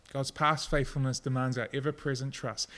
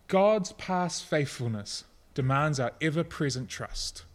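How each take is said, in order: First: Said in the usual way. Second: Slow quote. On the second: Shown as a demonstration.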